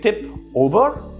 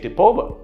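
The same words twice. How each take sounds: First: The two words are said as separate words. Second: The final p runs straight into over. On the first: The speaker calls it wrong. "You do not say" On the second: The speaker calls it right. "instead you say"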